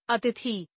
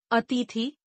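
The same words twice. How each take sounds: First: Said in the usual way. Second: अतिथि with long middle ee, "ateethi"; mispronounced. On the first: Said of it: "शुद्ध". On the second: Shown as a demonstration. Teacher showing an i error, mispronounced with long middle ee. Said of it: "अशुद्ध".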